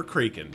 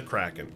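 First: "Kraken" with a long a, as CRAY-ken; first syllable of "Kraken" rhymes with day; alternative pronunciation. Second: "Kraken" with a short a, as in crack; first syllable of "Kraken" rhymes with back; preferred pronunciation. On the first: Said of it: "how you want to do that". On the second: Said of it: "I call it Kraken here". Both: Shown as a demonstration.

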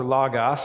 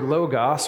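First: "logos" with an open first vowel, LAH-gahss; short-o logos. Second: "logos" with a long O, LOH-gahss. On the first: Preacher offers the alternative way to say it, open-vowel "logos". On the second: Preacher offers the congregation a Greek word, long-o "logos". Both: Shown as a demonstration. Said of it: "however you wanna say it".

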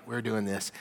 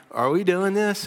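First: Matter-of-fact resolve. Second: High, loud, incredulous question; eager questioning. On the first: Friends on the roof committing to the plan, understated resolve. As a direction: settle it plainly, no question left. Friends' decided answer to the question. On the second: Friends on the roof checking with each other, eager question. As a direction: ask the buddies, pitched up and excited. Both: Acted.

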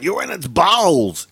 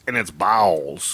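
First: Said in the usual way. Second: Lower, slow ominous echo; spooky repeat. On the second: Pretend. Cohost echoes the ghost-house joke in a low ominous voice. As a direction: intone it like a haunted house.

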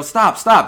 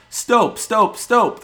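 First: "Stop, stop." yelled high and loud with a short o; the correct yell, stop with a short o; proper stop yell. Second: "Stop, stop, stop" yelled high and loud with a long o as in stoping; the misspelled yell, stoping with a long o; wrong vowel stoping. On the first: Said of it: "You have to yell". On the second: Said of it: "you yelled". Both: Shown as a demonstration.

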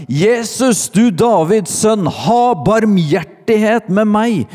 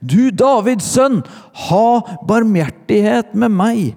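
First: High, loud cry for mercy; calling out. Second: Very high, loud, insistent plea; louder cry. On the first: Blind beggar to Jesus passing by, calling out loudly. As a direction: shout up the plea at full pitch. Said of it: "satte han i å rope". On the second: Blind beggar refusing to be silenced, shouting high and loud. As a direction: cry out over those hushing you. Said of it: "ropte bare enda høyere". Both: A narrator's reading.

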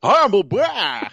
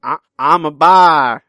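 First: Put-on slow, high old prospector voice. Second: Slow, loud mock imitation of a friend; a drawn-out impression of the co-host; imitating Eric. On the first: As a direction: drawl it like a gold-rush prospector. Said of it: "you sound like a prospector". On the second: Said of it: "That's not how I sound".

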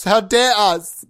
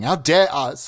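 First: Louder, higher mock outrage; hammed-up indignant repeat; mock indignation. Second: Said in the usual way. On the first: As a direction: draw it out in pretend affront.

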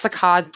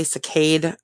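First: Saccade said to rhyme with cod; speaker's own pronunciation. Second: Saccade said to rhyme with made; alternative pronunciation. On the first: Therapist giving her preferred version of the term "saccade", AH vowel. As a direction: say "saccade" with an open AH in the last syllable. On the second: Therapist noting how other people say "saccade", AY vowel. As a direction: say "saccade" with a long AY in the last syllable. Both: Shown as a demonstration. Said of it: "Some people say saccade".

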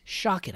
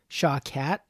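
First: Shakit with a light second syllable, like "shock it"; correct surname pronunciation. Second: Shawkat said as "shaw-cat"; mistaken surname pronunciation. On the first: Host introducing guest by his newly learned surname, Shakit said like "shock it". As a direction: say Shakit to rhyme with "pocket". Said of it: "I just learned". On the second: Host admitting his old mistake to guest, Shawkat said like "shaw-cat". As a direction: give Shawkat a full "cat" ending. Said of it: "always thought it was pronounced". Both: Shown as a demonstration.

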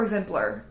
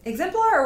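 First: Exemplar with the last syllable reduced to "pler"; EXEMPLAR with reduced ending. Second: Exemplar with a full, clear "-plar" ending; EXEMPLAR with full last syllable. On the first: Host offers the other pronunciation, Exemplar reduced to "pler". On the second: Podcast host asks how the clinic's name goes, Exemplar with full "plar". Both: Shown as a demonstration. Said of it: "Exemplar or Exemplar?".

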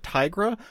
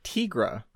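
First: "Tigra" said TIE-gra, with a long i as in tie. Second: "Tigra" said TEE-gra, slow and drawn out; alien voice. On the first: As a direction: say "Tigra" like the word tiger. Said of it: "do you pronounce it Tigra". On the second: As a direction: stretch out "Tigra" with a short ee, as if alien. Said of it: "do you pronounce it like, uh, an alien". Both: Shown as a demonstration.

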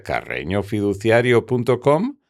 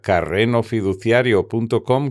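First: Said in the usual way. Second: "carrenofiduciario" with a simple n sound; N instead of ñ. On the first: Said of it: "con la ñ visible". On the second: Shown as a demonstration. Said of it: "con N en lugar de ñ".

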